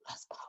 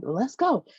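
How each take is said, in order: First: Sneaky whispered let's. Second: Let's go, said aloud and higher. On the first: Brother sneaking off with Michelle, whispered. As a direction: whisper it like a secret getaway. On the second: Brother urging Michelle to leave, said aloud. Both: Retold or imitated.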